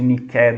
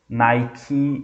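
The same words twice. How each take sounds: First: The name is said with a Greek pronunciation. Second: The name is said with an English pronunciation. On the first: It names the goddess of victory. "de Nike do grego" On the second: It names the sports brand. "é a pronúncia em inglês"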